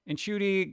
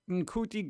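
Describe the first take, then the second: First: The name is said with an s-like sound. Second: The name is said with a hard k sound. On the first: The speaker calls it right. "that's a C, like a S sound" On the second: The speaker calls it wrong. "I don't know if it was a hard C"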